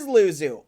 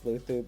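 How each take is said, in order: First: The middle consonant is a z sound. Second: The middle consonant is a th sound. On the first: "So it is Luzu" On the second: "It's Luthu because of the Spanish accent. In Spain, the Z sounds like th"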